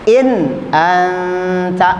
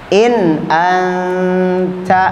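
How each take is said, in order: No difference in how they are said.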